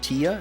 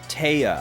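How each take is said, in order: First: The first vowel sounds like 'tee'. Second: The first vowel sounds like 'tie'. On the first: The speaker calls it wrong. "is it like Tia?" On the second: The speaker calls it right. "It's pronounced like, oh, Taya"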